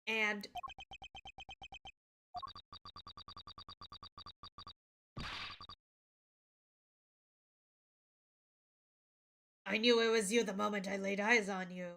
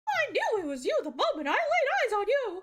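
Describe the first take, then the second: First: It is said in a normal voice. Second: It is said in a Mickey voice.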